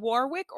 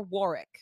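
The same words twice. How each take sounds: First: "Warwick" spoken as spelt, war-wick; W sounded in Warwick. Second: "Warwick" with a silent middle w, worr-ick. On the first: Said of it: "Is it Warwick or Warwick". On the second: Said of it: "I believe that's pronounced Warwick". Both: Shown as a demonstration.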